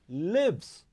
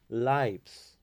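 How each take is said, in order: First: The vowel is short, as in 'gives'. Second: The vowel is long, as in 'hives'. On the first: The creator is living through the person. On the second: It names the lives the creator has entered.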